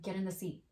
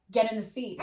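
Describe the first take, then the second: First: Said in the usual way. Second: Louder, final order; mother losing patience with the car seat, firm; firmer command. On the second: Retold or imitated. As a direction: put your foot down this time. Mom ordering daughter, repeated.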